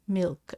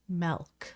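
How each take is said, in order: First: The word is said with standard pronunciation. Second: The word is said with an inherited regional accent. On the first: This is the usual way others say it. "I don't say milk" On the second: This is the family way passed down from a grandmother. "I say milk, ... It's kind of a accent that's been handed down forever"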